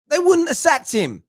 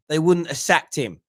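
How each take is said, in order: First: Wouldn't pushed much higher in pitch; emphatic repeat. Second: Said in the usual way. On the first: Real, not acted. Host repeating his point to listeners, with a high insistent wouldn't.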